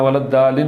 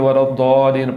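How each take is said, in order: First: The d sound is thin and light. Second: The d sound is heavy and full. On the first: The speaker calls it wrong. "दाल नहीं पढ़ना, वलद्दालीन नहीं पढ़ना" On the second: The speaker calls it right. "बल्कि वलद्दालीन पढ़ना है, इसको पुर करके पढ़ना है"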